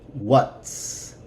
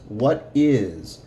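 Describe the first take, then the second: First: The two words are joined into one. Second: Two separate full words are said. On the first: "But together"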